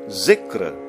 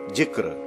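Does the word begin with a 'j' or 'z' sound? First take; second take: z; j. First: The word begins with a 'z' sound. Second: The word begins with a 'j' sound. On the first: The speaker calls it right. "we say zikr" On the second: The speaker calls it wrong. "not jikr"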